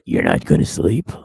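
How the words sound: It is said in a gravelly Batman voice.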